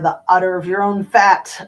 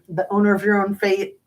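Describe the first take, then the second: First: It is said in a thick Irish accent. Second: It is said in a plain, unaccented way.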